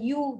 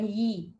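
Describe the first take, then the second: First: The y is followed by a u vowel. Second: The y is followed by an i vowel. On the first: "bukan you" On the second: "bukan yi"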